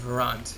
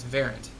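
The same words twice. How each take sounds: First: The stress is on the second syllable. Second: The stress is on the first syllable. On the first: "with emphasis on the second syllable" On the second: "as if the emphasis is on the first syllable"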